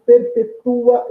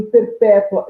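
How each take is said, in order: First: 'perpetua' slow, stress on 'tu', 'tu-a' split; teacher demo of 'perpetua', ending 'tu' and 'a' as two syllables. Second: 'perpétua' with stress on 'pé', 'tua' one syllable; teacher demo of 'perpétua', stressed 'pé', ending 'tua' in one pulse. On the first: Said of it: "eu tenho hiato". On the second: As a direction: hit 'pé' in 'perpétua', glide 'tua' together. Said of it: "eu tenho ditongo". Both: Shown as a demonstration.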